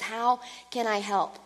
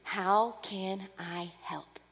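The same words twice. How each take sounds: First: Said in the usual way. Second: Hushed, slow, soft voice of the Spirit; Holy Spirit offering help, hushed and slow; soft whisper. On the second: Pretend. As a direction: breathe it gently like a whisper. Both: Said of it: "constantly whispering to you".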